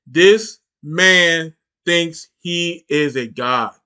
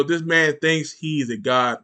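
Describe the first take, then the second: First: Each word spaced out slowly for weight; slow, deliberate restatement; slow emphatic repeat. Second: Said in the usual way. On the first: Shown as a demonstration. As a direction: drag it out so it sinks in. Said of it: "repeated for emphasis".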